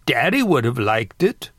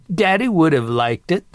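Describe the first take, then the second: First: Said in the usual way. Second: Higher, amused grandmother retort; chuckling. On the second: A narrator's reading. Grandmother defending her crude joke to sister, chuckling. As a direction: say it tickled, a chuckle following. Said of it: "Martha said and chuckled".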